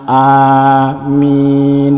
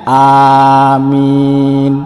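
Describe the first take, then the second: Both takes have the same delivery.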